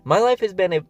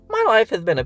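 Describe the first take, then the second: First: It is read in the speaker's normal voice. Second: It is read in a put-on character voice.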